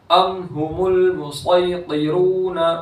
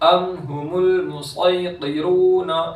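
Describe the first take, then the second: Both takes have the same delivery.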